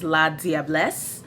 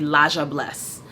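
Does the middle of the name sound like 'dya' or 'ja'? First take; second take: dya; ja. First: The middle sounds like a clear 'dee-ah'. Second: The middle is blended into a 'ja' sound. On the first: This is the proper form of the word. "I know that the word is La Diablesse" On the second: This is how a family member said it. "when my father would pronounce it, it would be Laja Bless"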